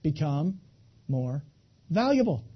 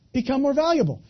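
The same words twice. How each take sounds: First: Each word set apart by a pause; Become, more, valuable, each said alone with a beat between. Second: Said in one push, a bit higher, stress on valuable; emphatic. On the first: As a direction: drop Become and more low, then lift valuable. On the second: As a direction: Become more valuable in one breath, landing hard on valuable. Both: Shown as a demonstration. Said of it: "Here's the answer".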